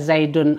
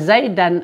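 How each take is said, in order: First: The word ends with the vowel u. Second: The word ends with the vowel a. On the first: "tidak kita baca zaidun" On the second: "begitu juga zaidan"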